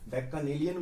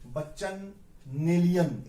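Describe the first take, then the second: First: It begins with a 'backa' sound. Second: It begins with a 'bachchan' sound. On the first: The speaker calls it right. "बैकानेलियन बोलते हैं" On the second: The speaker calls it wrong. "इसका उच्चारण मैंने बदल दिया"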